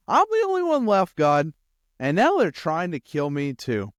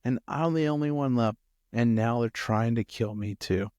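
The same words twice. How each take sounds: First: High, loud aggrieved complaint; bold protest. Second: Subdued complaint, sinking at the end; less bold. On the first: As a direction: blurt it boldly, voice leaping up in protest. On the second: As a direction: say it meekly, the boldness gone. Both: Acted. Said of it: "I bet not as boldly this time".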